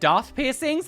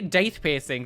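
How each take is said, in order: First: The first word sounds like 'Darth'. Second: The first word sounds like 'date'. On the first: Many other people claim this is correct. "so many people say that it's actually pronounced Darth piercings" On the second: This is how the speaker has always said it. "I say date piercing"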